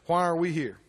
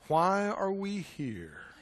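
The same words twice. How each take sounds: First: It is asked in the speaker's normal voice. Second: It is asked in a changed, mock-wise voice.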